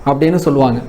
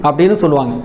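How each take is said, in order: The two takes are said the same way.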